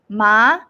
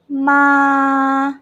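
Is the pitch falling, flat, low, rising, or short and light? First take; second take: rising; flat. First: The pitch rises upward. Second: The pitch stays flat and level. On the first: "the second tone going up" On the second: "this one is a flat"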